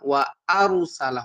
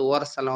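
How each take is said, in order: First: Wa and arsala are said as separate words. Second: The syllables run together as one word. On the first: The speaker calls it right. "ওয়া আরসালা হবে" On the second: The speaker calls it wrong. "অনেকে পড়ে ওয়ারসালা ওয়ারসালা কিন্তু ওয়ারসালা হবে না"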